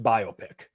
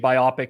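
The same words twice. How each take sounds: First: It is said as bio plus pic. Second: It is not said as bio plus pic. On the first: The speaker calls it right. "It's actually just biopic. It's a bio picture" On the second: The speaker calls it wrong. "I used to say biopic as well"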